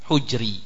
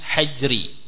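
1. Vokal pertama adalah u. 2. Vokal pertama adalah a. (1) "yaitu ad-dhammah" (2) "bisa pula dengan fathahnya ha"

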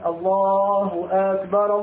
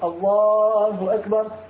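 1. تُمدّ الحركة الأولى في akbar فتصير طويلة. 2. تُنطق الحركة الأولى في akbar قصيرة. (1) "هذا التكبير بهذه الطريقة مد همزة أكبر لا يجوز" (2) "أعجبتني كثيرا طريقة التكبير في مصر"

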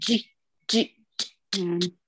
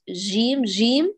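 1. صوت الجيم منتشر. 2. صوت الجيم متدفق بشكل متواصل. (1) "الإتيان بتفشي كمان هذا خطأ" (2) "بإجراء الصوت"

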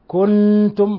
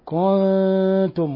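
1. النون مشددة واللسان ملاصق. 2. النون مُخفاة غنّة، غير مشددة. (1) "ولا نقول كنتم خطأ" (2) "يخفي من غير تشديد"

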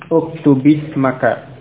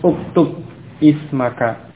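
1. Kedua kata menyambung menjadi uktubismaka, tanpa hentian glotis. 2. Kedua kata terpisah, dengan hentian glotis pada ismaka. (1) "menjadi uktubismaka" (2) "Asalnya uktub ismaka"

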